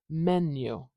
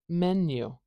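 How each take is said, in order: No difference in how they are said.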